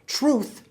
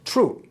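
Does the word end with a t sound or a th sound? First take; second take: th sound; t sound. First: It ends with a soft th sound. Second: It ends with a hard dental t sound. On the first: "Truth becomes true" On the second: "Truth becomes true"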